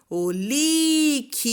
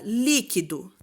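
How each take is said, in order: First: "líquido" called out higher, LÍ held long, then KI and DO apart; slow "líquido", all weight on LÍ; calling out stressed syllable. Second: Said in the usual way. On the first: Shown as a demonstration. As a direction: call out "líquido", stretching LÍ and separating the rest. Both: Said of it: "Qual que é a sílaba tônica?".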